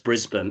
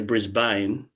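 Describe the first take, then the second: First: It is said with an Australian pronunciation. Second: It is said with an American pronunciation. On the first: The speaker calls it right. "but it's Brisbane" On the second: The speaker calls it wrong. "they'll say Brisbane because that's the way it's spelt"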